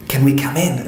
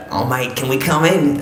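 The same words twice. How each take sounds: First: Neighbour mistakenly voiced with an Afghan accent; confused Afghan accent. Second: Imitating a matey Australian accent; Australian neighbour accent. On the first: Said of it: "I'm getting my accents confused there". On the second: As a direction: put on an Aussie neighbour's accent. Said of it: "that's not how they speak".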